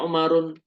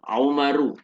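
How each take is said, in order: First: The word ends with an added n sound. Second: The word ends in a vowel with no n. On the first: The speaker calls it wrong. "nggak boleh kita membaca Umarun" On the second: The speaker calls it right. "tetap tidak boleh bertanwin"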